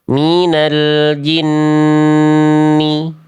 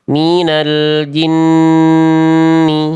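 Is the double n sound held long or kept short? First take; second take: long; long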